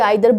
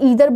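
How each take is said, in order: First: The first vowel sounds like 'eye'. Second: The first vowel sounds like 'ee'. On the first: "आइदर बोल लीजिए" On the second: "इसको ईदर बोल लीजिए"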